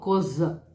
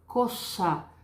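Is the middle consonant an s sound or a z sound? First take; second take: z sound; s sound. First: The middle consonant is a voiced z sound. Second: The middle consonant is a voiceless s sound. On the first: The speaker calls it wrong. "Eu não falo cosa" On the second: The speaker calls it right. "Eu falo casa, cosa"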